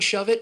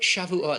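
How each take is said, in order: First: The word is said like English 'shove it'. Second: The word is said as three syllables, 'Shavuot'. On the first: The speaker calls it wrong. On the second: The speaker calls it right.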